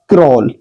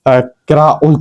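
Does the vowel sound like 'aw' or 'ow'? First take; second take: aw; ow. First: The vowel is an 'aw' sound, as in saw. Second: The vowel is an 'ow' sound, as in cow. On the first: The speaker calls it right. "इसको पढ़ा जाएगा क्रॉल" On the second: The speaker calls it wrong. "अब हम इसको क्राउल तो पढ़ नहीं सकते।"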